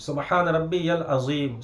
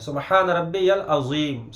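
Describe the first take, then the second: The two takes are said the same way.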